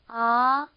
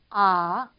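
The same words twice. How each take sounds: First: The pitch rises steadily from start to end. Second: The pitch dips low and then rises. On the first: "이렇게 올라가는 음인 거죠" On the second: "밑으로 쳐졌다가 다시 올라가는 음이에요"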